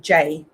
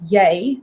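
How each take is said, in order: First: The word begins with a hard J sound. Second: The word begins with a soft Y sound. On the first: This is Cape Coloured slang. "they'll pronounce it as a hard J" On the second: This is the standard Afrikaans pronunciation. "pronounced as a y"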